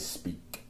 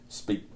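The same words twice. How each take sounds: First: The final sound is fully pronounced. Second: The final sound is cut short. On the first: "I got used to pronouncing that last um, syllable or that last letter" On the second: "instead of just like running over it"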